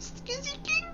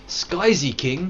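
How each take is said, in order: First: Skizzy King squeaked very high, soft, rising; squeaky try. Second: Skyzy King said slow and higher; trying a name. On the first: Testing the viewer's name in a squeaky high voice. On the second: Reading a viewer's name aloud, slowly testing it. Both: Shown as a demonstration. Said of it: "Or Sky Z King?".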